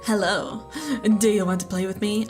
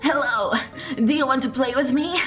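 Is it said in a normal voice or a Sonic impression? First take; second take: normal voice; Sonic impression. First: It is said in his normal voice. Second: It is said in a Sonic impression voice.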